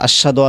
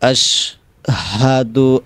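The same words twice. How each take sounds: First: The middle H sound is dropped. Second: The middle H sound is clearly pronounced. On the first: The speaker calls it wrong. "হাটা ছেড়ে দেয়" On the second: The speaker calls it right. "হা উচ্চারণ করতে হবে"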